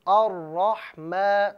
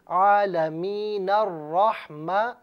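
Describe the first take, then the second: First: الرحمہ started on its own, slow and drawn; separate pronunciation. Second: عالمین الرحمہ with the hamza dropped, joined; joined pronunciation. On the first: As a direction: say الرحمہ standalone, slowly. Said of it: "علیحدہ طور پر پڑھیں تو". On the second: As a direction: link عالمین into الرحمہ without a break. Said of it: "ملائیں گے". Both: Shown as a demonstration.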